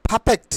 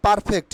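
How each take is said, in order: First: "perfect" said PHA-phekt, r dropped; breathy first p in "perfect", as pha-phekt; corrected pronunciation. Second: "perfect" said par-fekt with a sounded r; the wrong "perfect", clear r in "par"; common mispronunciation. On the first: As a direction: say "perfect" with puffed p and no r. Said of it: "It will be". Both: Shown as a demonstration.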